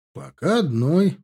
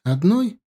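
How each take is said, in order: First: ОДНОЙ drawn out slowly, left rising to continue; slow, unfinished lift on ОДНОЙ; measured answer. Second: ОДНОЙ lifted high into a rising question; ОДНОЙ as a raised one-word question. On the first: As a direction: answer slowly, stretching ОДНОЙ before going on. Answer to the question just voiced. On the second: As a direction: ask ОДНОЙ as a surprised check, pitched up. Question in a voiced dialogue. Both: A narrator's reading.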